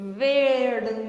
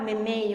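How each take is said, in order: First: The consonants are pronounced in the standard way. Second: The consonants are simplified like a small child's. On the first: This is the form the children need to learn. The speaker calls it right. "nunca vão aprender o vermelho" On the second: This is how the children say it. The speaker calls it wrong. "se a gente sempre falar memeio"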